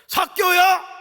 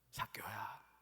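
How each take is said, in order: First: It is said loudly and harshly. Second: It is said softly and gently.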